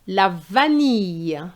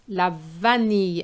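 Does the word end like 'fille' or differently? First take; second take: like fille; like fille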